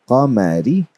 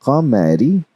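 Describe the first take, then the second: No difference in how they are said.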